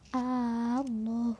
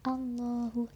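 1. Vokal pertamanya dipanjangkan. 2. Vokal pertamanya pendek. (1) "tidak boleh memanjangkan hamzahnya lafadz Allah" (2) "Jadi harus Allahu"

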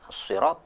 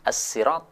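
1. Diawali dengan bunyi s yang tebal dan berat. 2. Diawali dengan bunyi s yang biasa dan ringan. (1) "Boleh dibaca dengan huruf shad" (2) "Boleh juga dibaca dengan huruf sin"

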